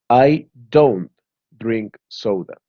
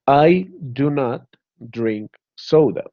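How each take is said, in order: First: The negative is contracted to 'don't'. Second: The negative is said in full, 'do not'.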